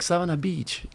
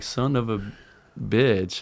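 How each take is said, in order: First: The words blend together and sound like 'Savannah Beach'. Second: Each word is said separately and clearly. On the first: The speaker calls it wrong. "I just pronounced the Savannah Beach" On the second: The speaker calls it right. "you break it down like"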